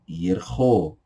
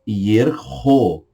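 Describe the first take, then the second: First: The word is said at a normal speed. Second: The word is said slowly and drawn out.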